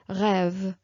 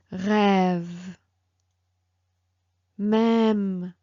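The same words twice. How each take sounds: First: "rêve" with the ê kept short; short, quick ê in "rêve"; unprolonged vowel. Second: "rêve, même" with the open ê held long; slow, drawn-out ê in "rêve, même"; prolonged vowel. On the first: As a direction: say "rêve" without stretching the vowel. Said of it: "It's not like". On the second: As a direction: stretch the vowel in "rêve" and "même", each word on its own. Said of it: "you prolong a little bit more the sound". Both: Shown as a demonstration.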